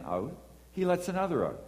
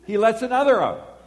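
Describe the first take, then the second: First: Said in the usual way. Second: High, loud indignant repeat; can't believe he did it again; outraged disbelief. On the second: Retold or imitated. Watching the driver wave cars out, loud outrage.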